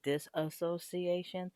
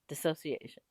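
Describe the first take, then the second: First: An extra 'a' syllable follows the first syllable. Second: No extra syllable follows the first syllable. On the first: The speaker calls it wrong. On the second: The speaker calls it right.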